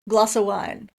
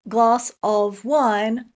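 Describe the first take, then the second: First: The word 'of' is reduced to a short 'uh'. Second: The word 'of' is said fully with its v sound. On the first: The speaker calls it right. "we often say uh instead of of" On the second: The speaker calls it wrong. "Don't say glass of wine"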